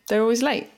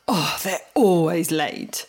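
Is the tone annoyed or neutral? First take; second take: neutral; annoyed. First: It sounds neutral, like a plain statement. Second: It sounds annoyed and judgmental.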